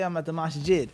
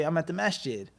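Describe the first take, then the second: First: "masjid" with separate s and j, broad first vowel; some brothers' masjid. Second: "masjid" as MASH-jid, short front a; usual masjid pronunciation. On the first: Retold or imitated. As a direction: say "masjid" as MAHS-jid, open back a. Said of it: "Or some brothers, they say". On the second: Shown as a demonstration. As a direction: say "masjid" with a soft, run-together sh in the middle. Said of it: "We say".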